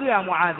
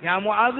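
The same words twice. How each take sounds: First: «معاذ» بفتحة ظاهرة على الذال; انطق «معاذ» منتهيًا بصوت الفتحة; فتح آخر المنادى. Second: «معاذ» بضمة ظاهرة على الذال; انطق «معاذ» منتهيًا بصوت الضمة; ضمّ آخر المنادى. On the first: («معاذَ» بالفتح في آخره) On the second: («معاذُ» بالضم في آخره) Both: Shown as a demonstration. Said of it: "يجوز وجهان".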